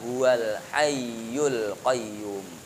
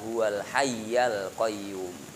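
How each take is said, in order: First: The word hayy ends with a u vowel. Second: The word hayy ends with an a vowel. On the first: The phrase is an ordinary construction. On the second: The phrase is an inserted clause.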